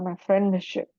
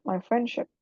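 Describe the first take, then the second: First: The d sound is clearly pronounced. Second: The d sound is left out, spoken faster. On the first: The speaker calls it wrong. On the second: The speaker calls it right. "Jadi lebih cepat"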